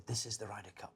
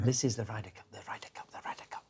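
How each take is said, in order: First: Hushed, breathy whisper of the Ryder Cup; whispered passion, no accent; whispering Seve. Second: Soft repeated whisper, fading; whispering Seve again. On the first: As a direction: breathe it like a legend on his sickbed. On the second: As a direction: whisper it over and over, softer each time. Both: Retold or imitated. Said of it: "I can't do an accent".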